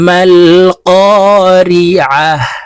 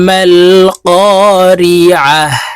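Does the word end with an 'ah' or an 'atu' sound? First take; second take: ah; ah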